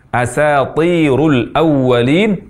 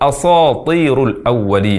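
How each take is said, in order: First: The s sound is light and thin. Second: The s sound is heavy and emphatic. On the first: The speaker calls it right. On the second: The speaker calls it wrong.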